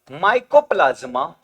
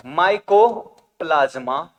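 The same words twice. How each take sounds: First: Said in the usual way. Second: mycoplasma drawn out in two parts, micro then plasma; slow dictation. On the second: Shown as a demonstration. Teacher dictating mycoplasma to students, slow and split. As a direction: say mycoplasma slowly, breaking it after micro.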